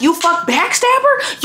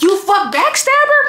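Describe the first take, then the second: First: Mock furious accusation. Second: Higher, angrier repeat of You fuck backstabber; repeating the accusation to the boyfriend, angrier and higher. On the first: Accusing boyfriend. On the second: Retold or imitated. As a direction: throw the same words back harder and higher.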